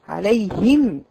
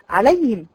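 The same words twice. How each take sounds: First: The h sound is clearly pronounced. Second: The h sound is dropped. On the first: The speaker calls it right. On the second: The speaker calls it wrong.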